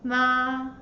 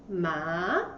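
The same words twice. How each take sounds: First: The pitch stays level and high. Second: The pitch rises from middle to high. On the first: "The first tone is flat" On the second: "The tone goes up"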